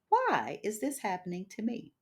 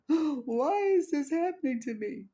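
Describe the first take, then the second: First: It sounds calm, curious and reflective. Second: It sounds self-pitying and complaining. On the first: The asker is open to learning. "Same question, different attitude" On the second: The asker feels like a victim. "from a woe is me perspective"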